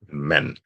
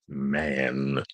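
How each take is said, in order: First: The vowel is cut short. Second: The vowel is drawn out long. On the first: The speaker calls it right. "just know to chop that A in half" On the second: The speaker calls it wrong. "don't pronounce it like an English word, man, which has a long A"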